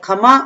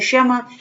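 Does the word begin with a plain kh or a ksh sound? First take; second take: kh; ksh. First: It begins with a plain kh sound. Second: It begins with a ksh sound. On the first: This is how village people say it. "ग्रामीण भाषा में बोला जाता है खमा" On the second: This is the standard Hindi form. "और हम बोलते हैं क्षमा"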